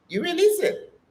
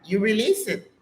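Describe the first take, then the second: First: "You release it" jumps high, with the stress on "release"; "release" sung out high and falling, in "You release it"; emphatic repeat. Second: Said in the usual way. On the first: Shown as a demonstration. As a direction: lift "release" way up the second time.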